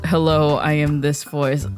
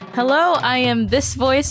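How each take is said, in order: First: It is a low voice from the throat. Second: It is the speaker's own natural voice.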